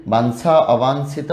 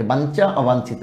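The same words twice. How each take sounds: First: বাঞ্ছা, অবাঞ্ছিত said with an s sound, bansha, obanshito; teacher models the right way: বাঞ্ছা as bansha; correct pronunciation. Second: বাঞ্ছা, অবাঞ্ছিত said with a ch sound, bancha, obanchito, the common mistake; deliberate mispronunciation. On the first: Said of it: "আবারও বলি". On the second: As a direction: say বাঞ্ছা and অবাঞ্ছিত the wrong way on purpose, with ch in the middle. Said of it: "এবার আমি ভুল বলছি, উচ্চারণটাই ভুলে বলেছি ইচ্ছা করেই". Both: Shown as a demonstration.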